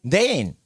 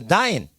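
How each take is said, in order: First: The vowel is said as 'ay-in', two parts. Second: The vowel is said as 'eye', like 'dine'. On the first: It takes more effort to say. "dein 하면 힘이 들어" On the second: It takes less effort to say. "에인데도 아인이라고 발음을 해요"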